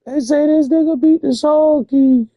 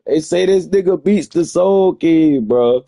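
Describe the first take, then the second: First: Way higher, louder, leaning hard on beat; incredulous squeal. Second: Said in the usual way. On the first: Real, not acted. Repeating the claim to viewers, high disbelieving shriek. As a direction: shriek it like it's absurd.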